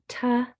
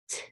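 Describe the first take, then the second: First: The consonant is followed by a voiced vowel. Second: The consonant is only a puff of air. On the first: The speaker calls it wrong. "A T sound is not ta" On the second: The speaker calls it right. "it's t"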